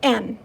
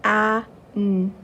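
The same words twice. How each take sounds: First: "An." said fast as one smooth word; blended quickly. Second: "A, n." as two separate sounds with a pause between; segmented sounds. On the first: Teacher blending the sounds quickly for children, one quick word. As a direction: run the A and n together into "An.". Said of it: "Now let's read it really fast". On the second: Teacher sounding out a word for children, sounds kept apart. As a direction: sound out "A" then "n" apart, slowly. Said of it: "One more time". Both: Shown as a demonstration.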